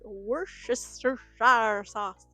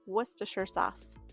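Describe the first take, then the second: First: It is said in an exaggerated, funny accent. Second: It is said plainly in an ordinary accent. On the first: The speaker calls it wrong. "with this funny accent" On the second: The speaker calls it right. "that's not actually what it's called. It's"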